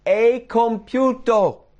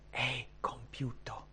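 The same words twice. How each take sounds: First: Loud, high, drawn-out shout; triumphant cry. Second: Very soft, slow, whispered quote; hushed whisper. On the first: Jesus on the cross before giving up the spirit, loud cry. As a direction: cry out slowly at full voice. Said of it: "dice quello che gridò". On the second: Preacher repeating Jesus' last words, slow hushed whisper. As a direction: whisper it slowly, with weight. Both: Acted.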